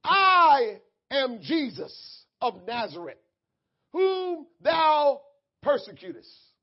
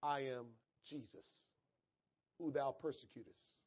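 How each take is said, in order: First: Slow, loud proclamation from heaven; grand, deliberate divine announcement; Jesus. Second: Low, soft restatement of the divine words; subdued, measured quote; quiet quotation. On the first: Acted. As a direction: declare it weightily, stretching the first word. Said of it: "And he said unto me". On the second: Retold or imitated. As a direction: say it hushed and low, with pauses. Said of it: "The voice said".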